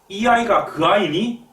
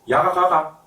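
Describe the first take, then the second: First: It is said in standard Korean, unshortened. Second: It is said in short, fast Gyeongsang dialect.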